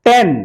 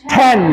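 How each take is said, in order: First: "टेन" with a hard T and no puff; unaspirated T. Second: "टेन" with an extra puff of air after T; aspirated T. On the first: Teacher contrasts two tens, "टेन" with unaspirated T. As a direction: say "टेन" with tongue-tip T, no breath after it. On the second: Teacher demonstrates aspiration, "टेन" with breathy burst on T. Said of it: "extra puff of air". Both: Shown as a demonstration.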